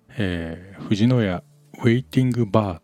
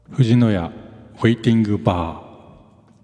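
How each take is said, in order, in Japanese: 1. 声はドライで、リバーブは加えられていません。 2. 声にはリバーブが加えられています。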